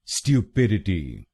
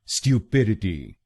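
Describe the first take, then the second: Both takes have the same delivery.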